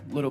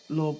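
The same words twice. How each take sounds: First: It is said in a plain, neutral accent. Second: It is said in an exaggerated country accent. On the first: The speaker calls it wrong. "if you say it outside of the accent, it doesn't sound right" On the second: The speaker calls it right. "if you could just repeat it for me"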